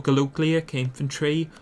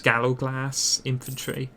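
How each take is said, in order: First: "Galogliak" said ga-LOHG-lee-ak; alternative pronunciation. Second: "Gallowglass" said GAL-oh-glass; anglicised pronunciation. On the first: Player naming an Irish unit, "Galogliak" pronounced with a -lee-ak ending. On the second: Player giving the other name, "Gallowglass" pronounced as two English words. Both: Shown as a demonstration. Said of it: "they're otherwise pronounced".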